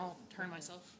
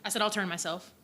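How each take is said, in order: First: Soft, quiet customer service voice; polite and soft-spoken. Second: Repeated louder, more projected. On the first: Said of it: "I'm still using my customer service voice". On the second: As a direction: say it again louder so the room hears. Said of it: "What's that?". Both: Real, not acted.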